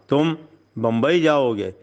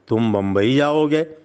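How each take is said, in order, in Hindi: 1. यह पक्का, हुक्म देने वाला आदेश लगता है। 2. यह एक सीधा, सच्चा सवाल लगता है। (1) "गोया आप हुक्म दे रहे हैं कि तुम्हें बम्बई जाना है।" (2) "इसका मतलब यह है कि क्या तुम्हारा बम्बई जाने का इरादा?"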